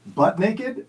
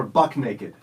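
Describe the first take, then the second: First: "butt" ending in T, said slowly; slow "butt naked", a t before the n. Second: "buck" ending in K, said slowly; slow "buck naked", a k before the n. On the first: Quiz host offering first choice, "butt" with T. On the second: Quiz host offering second choice, "buck" with K. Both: Shown as a demonstration. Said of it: "Is it".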